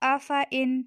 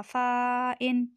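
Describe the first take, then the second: First: The vowel after the f is kept short. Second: The vowel after the f is drawn out long. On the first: The speaker calls it right. "फ़ा को लंबा नहीं करेंगे" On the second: The speaker calls it wrong. "फ़ा के साथ अलिफ है तो ये लंबा होगा"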